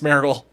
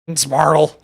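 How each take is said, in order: First: It is said in a neutral accent. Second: It is said in a Southern US drawl.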